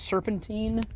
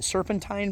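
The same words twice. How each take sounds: First: Put-on "serpentine" ending like the word teen; "serpentine" rhyming with seen. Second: "Serpentine" ending like the word tine; "Serpentine" rhyming with fine. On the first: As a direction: give "serpentine" a long ee in its last syllable. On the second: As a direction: give "Serpentine" a long i in its last syllable. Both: Shown as a demonstration. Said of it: "Is it serpentine or serpentine?".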